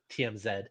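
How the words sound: The letters are said the Canadian way.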